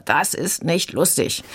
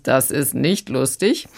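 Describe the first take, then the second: First: Lightly voiced sulky small boy, slowed; a touch of a pouting kindergartner; whining little brother. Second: Slow, dry official tone; a hint of a stern policeman; police officer. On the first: Critic imitating little Pippo's complaint, mild sulky whine. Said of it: "Und Pippo schreit dann wieder". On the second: Critic quoting the police, lightly stern and slow. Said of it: "Diesmal sagt die dann allerdings".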